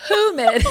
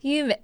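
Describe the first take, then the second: First: "Humid" said with a clear H at the start. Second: "Humid" said as "yumid" with no H sound; dropped H. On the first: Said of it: "there's an H". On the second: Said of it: "let's hear you try". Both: Shown as a demonstration.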